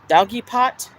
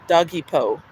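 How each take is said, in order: First: The word ends with a clear t sound. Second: The word ends without a t sound. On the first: "How do you pronounce that?" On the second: "like the Home Depot or Office Depot"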